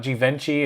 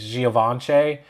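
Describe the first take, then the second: First: "Givenchy" as jih-VEN-chee; anglicized mispronunciation. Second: "Givenchy" slowly as zhee-uh-VON-shay; French-style pronunciation. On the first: YouTuber showing the wrong way, anglicized mispronunciation. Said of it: "it's not Givenchy". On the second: YouTuber correcting the brand name, French-style pronunciation. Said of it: "It's Givenchy". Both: Shown as a demonstration.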